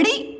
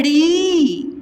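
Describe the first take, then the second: First: ड़ी as a brief "ri"; ड़ी with no hold on the vowel; short vowel. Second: ड़ी slowly held as "reee"; ड़ी long and drawn out; long vowel. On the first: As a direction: cut ड़ी off quickly. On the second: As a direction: stretch the vowel of ड़ी right out. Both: Shown as a demonstration. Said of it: "उच्चारण में समय लग रहा".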